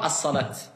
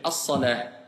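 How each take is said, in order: First: The word ends with a t sound. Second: The word ends with a soft h sound. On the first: The speaker calls it wrong. "Et pas as-salat" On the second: The speaker calls it right. "je vais dire as-salah"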